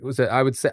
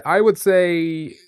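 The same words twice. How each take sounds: First: Said in the usual way. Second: Slow, drawn-out and louder. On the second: Real, not acted. Streamer stretching out his guess, slow and loud. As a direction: stretch it out while deciding.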